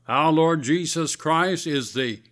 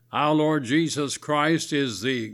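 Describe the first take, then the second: No difference in how they are said.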